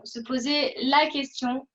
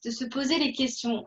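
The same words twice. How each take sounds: First: Slow down and lean on "la"; "la" singled out with weight, at an unhurried pace; stress on LA. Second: Said in the usual way. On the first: Real, not acted. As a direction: make "la" stand out, drawn out as the one that counts. Self-correction to the singular.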